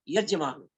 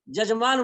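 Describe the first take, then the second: First: The word begins with a y sound. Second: The word begins with a j sound. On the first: "यजमान शब्द है" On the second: "Uttar Pradesh Bihar में यजमान को जजमान बोलते हैं"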